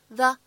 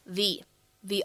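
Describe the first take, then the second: First: The word has a short weak uh vowel. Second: The word has a long full ee vowel. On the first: The speaker calls it wrong. "此时我们不能读成the" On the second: The speaker calls it right. "应该读成相对应的重读形式the honor"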